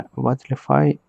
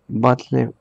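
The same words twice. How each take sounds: First: Battlefy said in full as "batlefai", English style; Battlefy fully pronounced; corrected Battlefy. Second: Battlefy broken off after "batle"; half-said Battlefy; cut-off Battlefy. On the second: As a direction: start Battlefy, then stop short at "batle". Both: Real, not acted.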